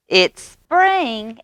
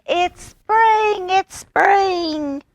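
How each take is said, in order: First: High loud call; frog shout. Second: It's spring squeaked very high; very high frog shout. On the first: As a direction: announce it to the woods. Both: A narrator's reading. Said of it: "he shouted".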